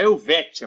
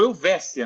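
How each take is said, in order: First: The consonant before the ending sounds like 't'. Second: The consonant before the ending sounds like 's'. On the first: The speaker calls it wrong. "não é Helvétia, por mais que se escreva dessa maneira" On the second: The speaker calls it right. "a rua Helvécia é rua Helvécia"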